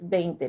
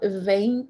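First: The word begins with a B sound. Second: The word begins with a V sound. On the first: The speaker calls it right. "it's 20, because as I mentioned before, B and V have the same sound" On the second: The speaker calls it wrong. "It's not 20"

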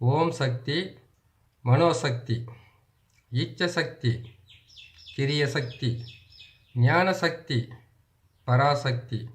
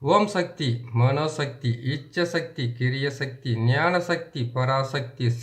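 First: The words are recited at a slow pace. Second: The words are recited at a fast pace. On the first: "இன்னொரு முறை உங்களுக்கு நான் பொறுமையாக சொல்கிறேன்" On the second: "நான் கொஞ்சம் வேகமாக சொல்லிட்டு நினைக்கிறேன்"

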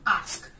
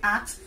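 First: A long ah vowel is followed by sk. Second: The word ends with a ks sound. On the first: The speaker calls it right. "You have longness form ah ... when you add that to consonant close to sk, it gives you ask" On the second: The speaker calls it wrong. "another word you can hear is ax, A-X-E. They say ax"

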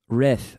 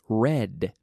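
First: The final d is made with the tongue out. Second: The final d is made with the tongue inside. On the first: The speaker calls it wrong. "pronuncian con la lengua sacada" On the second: The speaker calls it right. "con la lengua dentro, por arriba"

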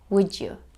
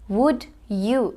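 First: The d and y blend into a j sound. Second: The d and y sounds stay separate.

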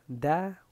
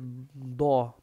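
First: The syllable is light, with an open a vowel. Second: The syllable is heavy, with a dark o vowel. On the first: The speaker calls it right. "la boca necesita hacer mucho como para arriba y para abajo" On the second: The speaker calls it wrong. "si deja la boca como fija en esa posición, vas a decir do"

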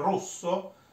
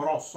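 First: The o vowel is closed. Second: The o vowel is open. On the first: This is the standard pronunciation. The speaker calls it right. "ma si dovrebbe dire rosso" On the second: This is how it is said locally. The speaker calls it wrong. "noi diciamo rosso"

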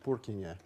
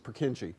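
First: The name is said with a Czech pronunciation. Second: The name is said with an English pronunciation. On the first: This is how the man himself said the name. The speaker calls it right. "He would have pronounced it Purkinje" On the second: This is how people locally say the name. The speaker calls it wrong. "if you talk to somebody in this part of the world, it's Purkinje"

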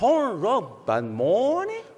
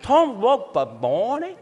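First: It is said slowly. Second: It is said at normal speed.

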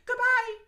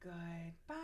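First: It is said very fast. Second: It is said very slowly.

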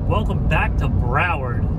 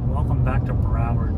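First: It is said with more lively energy. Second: It is said with plain, ordinary energy.

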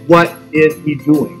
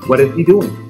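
First: Each word is said separately, without linking. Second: The words run together, linked into one flow. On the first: "It's not wrong to say what is he doing" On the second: "it's more natural to link it all and put it together"

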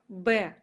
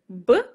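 First: The consonant followed by an e vowel. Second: A bare consonant sound with no vowel. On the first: This is the letter's name. "а буква Б ... два звука Б, Э" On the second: This is the sound. "Звук у нас будет Б"

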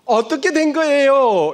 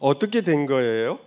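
First: The question sounds sharp and aggressive. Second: The question sounds low and calm. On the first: The question attacks the listener. The speaker calls it wrong. "이것은 공격적 질문이죠" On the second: The question invites the listener to talk. The speaker calls it right. "낮추어서"

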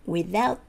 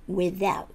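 Both takes have the same delivery.

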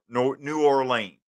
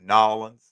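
First: The name is said fully with all its syllables. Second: The name is squeezed into two syllables like 'Nawlins'. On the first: This is the standard usage. "to say it properly" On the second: This is the local usage down there. "That's what they say down there"

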